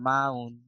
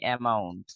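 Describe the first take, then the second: First: মাউন্ট as "maun", no first vowel, no t; British pronunciation. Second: Said in the usual way. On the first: Shown as a demonstration. Teacher showing how the British say amount, "maun". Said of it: "ব্রিটিশরা কি উচ্চারণ করে জানো". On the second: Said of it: "আমরা বলি".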